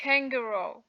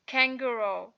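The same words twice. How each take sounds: The two takes are said the same way.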